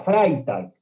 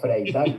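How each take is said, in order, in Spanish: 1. El nombre se dice con pronunciación alemana. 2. El nombre se dice con pronunciación española. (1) "Sería Freitag" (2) "no Freitag, pero bueno. Españolizamos"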